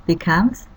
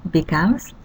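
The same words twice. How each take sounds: The two takes are said the same way.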